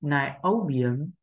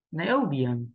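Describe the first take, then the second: First: Slow "Nài opium," with a rise on "opium"; slow demo. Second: "nài opium." smooth, stress on "opium"; stress focus. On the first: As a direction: spell out "Nài opium," slowly. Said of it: "không có ngữ điệu". (đọc chậm "Nài opium," lên giọng ở "opium") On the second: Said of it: "tập trung tâm trí vào trọng âm". (đọc "nài opium." tự nhiên, tập trung trọng âm) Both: Shown as a demonstration.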